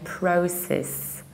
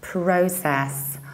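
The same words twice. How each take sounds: First: The ending vowel is reduced. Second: The ending vowel is fully pronounced.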